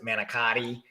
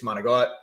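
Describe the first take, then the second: First: The word is said in full, ending in a vowel. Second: The word is clipped, ending without a vowel. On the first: This is how most other people say it. "Other people would pronounce it manicotti" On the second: This is how the speaker's own family says it. "Okay, it's manigot"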